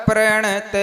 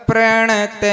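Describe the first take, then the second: No difference in how they are said.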